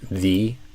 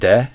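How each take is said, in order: First: It starts with a smooth, continuous th sound. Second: It starts with a hard, stopped d sound. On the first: The speaker calls it right. "we want to do the" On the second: The speaker calls it wrong. "instead of de"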